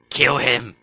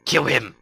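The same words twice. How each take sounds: First: Repeated loud shout. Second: Loud shout. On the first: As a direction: yell it again. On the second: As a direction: yell the order. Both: Real, not acted. Urging an attack.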